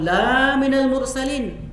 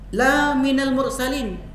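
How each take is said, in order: First: The first vowel is long. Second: The first vowel is short. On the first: You are not a messenger. The speaker calls it wrong. "engkau bukan seorang utusan" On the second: You are truly a messenger. The speaker calls it right. "engkau benar-benar seorang utusan"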